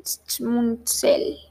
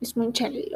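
First: Schmunzel whispered as SMUN-sel; whispered trial. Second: Schmunzel said softly as ish-MUN-chel; second try. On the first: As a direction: breathe Schmunzel out as SMOON-zel. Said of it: "S C H M U N Z E L". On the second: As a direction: Schmunzel with a CH sound in the middle, soft. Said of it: "o como así". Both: Shown as a demonstration.

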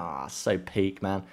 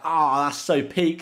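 First: Said in the usual way. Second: High, loud and slow "Oh, that's so peak"; retold dismay. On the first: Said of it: "and I'm like". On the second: Retelling a harsh red card, drawn-out dismay. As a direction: drag out "peak" in mock despair. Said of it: "And I'm like".

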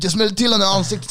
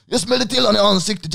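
First: High, loud and fast repeat; excited rushed brag. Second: Much higher and louder, breathless boast; excited bragging. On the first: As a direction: rattle it off again, hyped. Friend repeats the boast, faster. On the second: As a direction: blurt it out, thrilled with yourself. Friend bragging after running away. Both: Retold or imitated.

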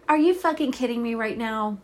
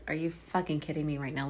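First: Loud, real outburst of disbelief; real angry shout at the TV; outraged disbelief. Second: Quick, softer, muttered "Are you fucking kidding me right now?"; quick understated take on "Are you fucking kidding me right now?"; mock disbelief. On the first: Real, not acted. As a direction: blurt it out, genuinely furious at the screen. Shocked that Ben was killed. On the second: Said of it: "look on her face".

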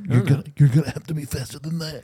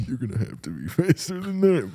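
First: Put-on old man voice. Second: Put-on softer, higher old man. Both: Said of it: "commercial with the old man".

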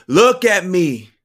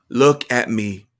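First: Louder, higher and slow; slow, raised-voice plea; insistent pleading. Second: Louder, level-pitched command; firm first appeal; firm urging. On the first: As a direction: demand it, stretching each word. Urging the boy, repeated insistently. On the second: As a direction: urge the child to meet your eyes. Urging the boy, first attempt. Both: A narrator's reading.

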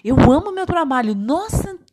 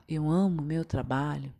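First: Loud, fast, high gush of excitement; enthusiastic, full of love. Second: Low, soft, uninvested delivery; indifferent, just saying it. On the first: Teacher replaying the second take for students, said with excited enthusiasm. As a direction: burst out with real love for it. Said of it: "Você vê uma empolgação". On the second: Teacher replaying the first take for students, said indifferently. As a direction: toss it out with no feeling behind it. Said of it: "tô falando por falar". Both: Shown as a demonstration.

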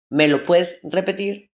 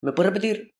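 First: Slow, drawn-out asking again; slow repeat request. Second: Said in the usual way. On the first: Retold or imitated. People asking him to repeat, slower. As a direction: stretch the question out slowly. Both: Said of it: "la gente me dice".

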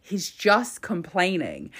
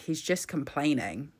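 First: Slower, weightier "just", hit harder; stress on "just". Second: Said in the usual way. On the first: Real, not acted. Commentator repeating the charge against the minister, stressing "just". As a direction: lean on "just" and slow the line down. Repeats line with more emphasis.

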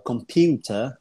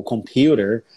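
First: "computer" ending "-tuh", no r; British-style "computer", crisp t and dropped r; correct pronunciation. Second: American-style "computer", "com-PYOO-der"; alternative pronunciation. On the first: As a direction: slowly say "computer" as "com-PYOO-tuh". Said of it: "pronunciar as palavras corretamente". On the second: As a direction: sound the r at the end of "computer". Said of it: "ou computer". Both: Shown as a demonstration.

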